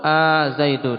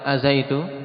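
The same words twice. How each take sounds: First: The opening vowel is long. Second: The opening vowel is short. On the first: "dengan mad" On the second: "bisa dia dibaca pendek"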